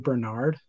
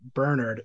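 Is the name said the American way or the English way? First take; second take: American; English. First: The name is said the American way. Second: The name is said the English way. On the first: "I think we would say Bernard" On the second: "I think that's an English pronunciation"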